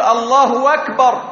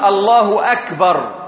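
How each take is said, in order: First: A w sound is inserted before akbar. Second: The k in akbar is a clear k. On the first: The speaker calls it wrong. "ومن الناس من يزيد واوا بين الاسم الأحسن وبين قوله أكبر" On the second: The speaker calls it right. "وإنما لابد أن يحقق الكاف"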